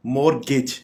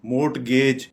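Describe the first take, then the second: First: "मॉर्गेज" as MOR-gich, silent t; correct pronunciation. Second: "मोर्टगेज" with sounded t and long gayj; wrong pronunciation. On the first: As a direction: say "मॉर्गेज" without t, ending short gij. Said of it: "correct pronounce इस तरह". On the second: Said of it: "ये गलत pronounce". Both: Shown as a demonstration.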